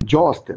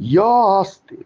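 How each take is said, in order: First: The phrase begins with a j sound. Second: The phrase begins with a y sound. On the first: The speaker calls it wrong. "জ আস্তে না" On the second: The speaker calls it right.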